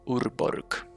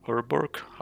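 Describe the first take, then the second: First: It is said with a Finnish pronunciation. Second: It is said with an ordinary English pronunciation.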